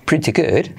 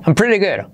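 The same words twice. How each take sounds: First: British pretty good with clear t; English crisp-t pronunciation; British accent. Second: Higher American-style line; American accent. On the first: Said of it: "en británico". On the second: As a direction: say pretty good the American way. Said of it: "T como resuave". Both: Shown as a demonstration.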